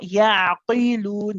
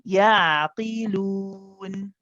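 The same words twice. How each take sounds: First: The q sound is made very heavy. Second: The q sound is made lighter. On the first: The speaker calls it wrong. "We don't need to over exaggerate. Not yaqilun, that would be wrong" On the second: The speaker calls it right. "it's one of the not so heavy versions"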